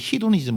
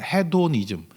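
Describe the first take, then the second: First: The word is said the American way. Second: The word is said the Korean way. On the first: "미국 애들은 히도니즘 뭐 이러던데" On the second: "한국말로 발음할 때는"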